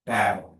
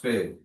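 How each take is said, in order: First: The vowel is said with a more open mouth. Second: The vowel is said with a more closed mouth. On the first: The speaker calls it right. "Obre una miqueta més" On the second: The speaker calls it wrong. "tu estàs fent-la com en castellà"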